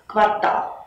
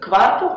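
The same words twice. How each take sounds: First: The stress is on the second syllable. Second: The stress is on the first syllable. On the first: The speaker calls it right. "ударение должно падать только на последний слог" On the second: The speaker calls it wrong. "то ударение падает на первый слог. Это неправильно"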